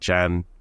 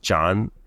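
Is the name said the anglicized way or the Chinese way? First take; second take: anglicized; Chinese. First: The name is said with an anglicized pronunciation. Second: The name is said with a Chinese-style pronunciation. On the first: The speaker calls it wrong. "I've been told I mispronounced the last name" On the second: The speaker calls it right. "how the Chinese last name would be pronounced"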